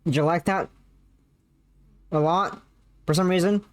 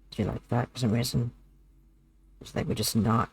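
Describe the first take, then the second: First: Said in the usual way. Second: Low, soft, minimal-effort voice. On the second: Shown as a demonstration. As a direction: talk low and quietly, putting no effort into it. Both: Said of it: "did you enjoy me just not putting effort?".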